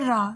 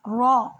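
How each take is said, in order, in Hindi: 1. 'r' पतला और हल्का बोला जाता है। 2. 'r' भरा हुआ और भारी बोला जाता है। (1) "ना के रा" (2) "रॉ ना के रा"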